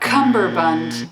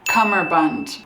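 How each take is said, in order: First: The word begins with 'cumber', with a b sound. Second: The word begins with 'cummer', with no b sound. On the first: The speaker calls it wrong. "it's not cummerbund" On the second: The speaker calls it right. "it's cummerbund"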